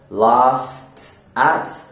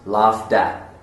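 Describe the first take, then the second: First: The end of 'laughed' is a clear T sound. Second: The end of 'laughed' is a D sound.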